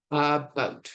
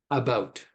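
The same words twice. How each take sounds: First: "about" split in two, second syllable "bout" punched; overemphasized iambic stress. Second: "about" with a light first syllable, weight on "bout"; iambic stress. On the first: Lecturer demonstrates an iambic foot to students, overemphasized stress on the end of "about". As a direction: exaggerate "about" as a-BOUT, drawn apart for clarity. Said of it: "I'm overemphasizing here for clarity". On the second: Lecturer gives students an example of an iambic word, second-syllable stress on "about". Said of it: "example of a word that is naturally an iambic foot".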